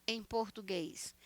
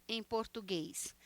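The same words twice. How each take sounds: Both takes have the same delivery.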